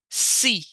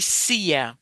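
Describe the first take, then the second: First: The vowel is one plain long ee sound. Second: The vowel is split into two sounds. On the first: The speaker calls it right. "you pronounce as E" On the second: The speaker calls it wrong. "You don't say cia. Never"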